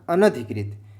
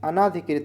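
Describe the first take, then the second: First: The vowel after the first n is short. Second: The vowel after the first n is long. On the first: The speaker calls it right. "क्या शुद्ध होता है? अनधिकृत" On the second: The speaker calls it wrong. "अनाधिकृत मत लगाना"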